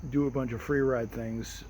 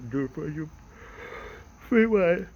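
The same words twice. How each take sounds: First: Said in the usual way. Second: High, loud squeaky playful lilt. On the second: Pretend. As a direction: squeak it out playfully, much higher. Playful repeat of his plan.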